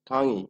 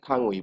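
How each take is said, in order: First: The word ends in an 'i' vowel. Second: The word ends in a separate 'ui' vowel. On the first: The speaker calls it right. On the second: The speaker calls it wrong.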